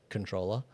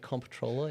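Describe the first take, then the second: First: It begins with a plain 'con' sound. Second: It begins with a clear 'comp' sound. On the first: The speaker calls it right. "apparently it's just controller" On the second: The speaker calls it wrong. "I prefer to say comptroller"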